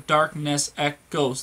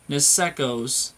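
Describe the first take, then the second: First: The words are said as separate words. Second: The words are run together as one word. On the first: The speaker calls it wrong. "instead of saying you know darkness echoes three words" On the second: The speaker calls it right. "you want to say nesecos"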